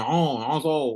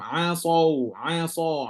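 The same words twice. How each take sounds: First: Asau said as oso, the a turned into o; wrong over-rounded o. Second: Asau with a full, rounded heavy a; heavy tafkhim. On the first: Teacher demonstrates the wrong rounding. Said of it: "Jangan macam". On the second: Teacher demonstrates the correct tafkhim. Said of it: "baca dengan tafkhim". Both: Shown as a demonstration.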